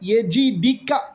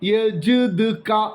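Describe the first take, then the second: First: Said ya-ji-di-ka, with i after j and d. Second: Said yaj-du-ka, with no vowel after j. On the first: "ജീമിന് കസർ, ദാലിനും കസർ" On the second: "ജീമും ദാലും സുക്കൂനായിട്ട് ഉച്ചരിക്കപ്പെടും"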